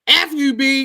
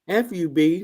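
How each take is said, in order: First: It is said in a harsh, hostile tone. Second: It is said in a nice, gentle tone.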